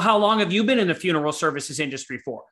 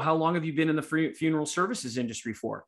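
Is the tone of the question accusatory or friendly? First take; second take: accusatory; friendly. First: The question sounds accusatory and confrontational. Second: The question sounds friendly and curious. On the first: The asker is challenging the listener's credibility. "This is literally her tone with me" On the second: The asker is simply curious about the listener's background. "as opposed to"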